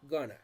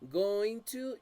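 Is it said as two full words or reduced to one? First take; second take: reduced; full. First: The words are blended into one short reduced word. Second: Both words are said fully and separately. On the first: "you say just gonna" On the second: "instead of say going to"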